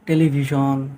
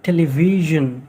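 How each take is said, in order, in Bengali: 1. শেষের উচ্চারণ 'shon'-এর মতো। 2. শেষের উচ্চারণ 'zhun'-এর মতো। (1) "অসমীয়াত আমি ... শ্যন বুলি উচ্চাৰণ কৰোঁ" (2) "ৰিয়েল যিটো প্ৰনাউন্সিয়েশ্যন ... S I O' N জন জন"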